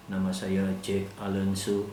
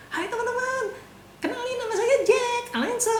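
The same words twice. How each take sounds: First: Said in the usual way. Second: Much higher, lively self-introduction; perky high-pitched hello; bright cheerful intro. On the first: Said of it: "bahkan dari intonasi Anda bisa mainkan". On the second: Shown as a demonstration. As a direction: greet the room high and chirpy like a host. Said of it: "Akan beda gitu".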